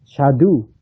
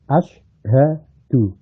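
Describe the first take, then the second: First: The word starts directly with the 'sh' sound. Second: The word starts with a vowel before 'sh'. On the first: The speaker calls it wrong. "Menghilangi hamzahnya asyhadu ... itu nggak boleh" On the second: The speaker calls it right. "padahal asyhadu"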